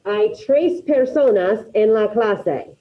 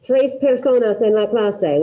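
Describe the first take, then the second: First: "Hay tres personas en la clase" said slowly, each word set apart; slow example sentence. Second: Said in the usual way. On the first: Shown as a demonstration. Teacher giving students an example, slow and deliberate. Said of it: "let me give you an example". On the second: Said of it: "So I".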